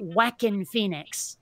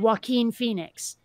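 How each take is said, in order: First: The first name begins with a hard 'whack' sound. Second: The first name begins with a soft 'wah' sound. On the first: The speaker calls it wrong. "It always came out Whackin Phoenix every time. Like you're smacking the guy" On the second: The speaker calls it right. "they could not say Joaquin Phoenix"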